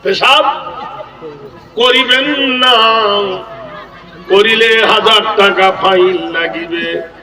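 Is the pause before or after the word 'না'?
after. The pause comes after the word 'না'.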